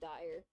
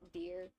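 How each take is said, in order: First: The name rhymes with 'fire'. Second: The name rhymes with 'here'. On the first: The speaker calls it wrong. "I keep pronouncing it as dire" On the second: The speaker calls it right. "it's supposed to be pronounced deer"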